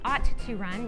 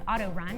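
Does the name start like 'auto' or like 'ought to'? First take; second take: ought to; auto. First: The name starts like the words ought to. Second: The name starts like the word auto. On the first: The speaker calls it right. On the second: The speaker calls it wrong. "oftentimes mispronounced as auto run"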